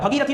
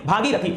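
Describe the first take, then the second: First: The first syllable has a short vowel. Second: The first syllable has a long vowel. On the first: The speaker calls it wrong. "भगीरथी नहीं" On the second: The speaker calls it right. "यहां भ पे आ की मात्रा लगेगा"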